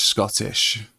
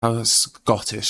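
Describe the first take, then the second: First: Scottish said with a Scottish shk sound. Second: Said in the usual way. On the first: Shown as a demonstration. Streamer switching into a Scottish accent for chat. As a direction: roll into Scottish on the word Scottish.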